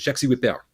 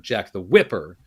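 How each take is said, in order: First: It is said in a French accent. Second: It is said in a plain English accent. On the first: "in the French accent" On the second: "You've got that emphasis on the first syllable"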